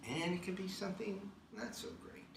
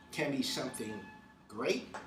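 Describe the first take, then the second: First: "not" pressed down, whole line quieter; stress on not. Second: Said in the usual way. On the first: Shown as a demonstration. A speaker contrasting good and not so good, stressing "not". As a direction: drop the voice and lean on "not".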